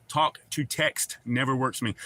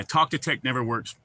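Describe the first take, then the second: First: "Talk to text" in separate, distinct words; "text" fully sounded, words spaced apart; careful enunciation. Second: Said in the usual way. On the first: Real, not acted. Repeats the phrase more distinctly.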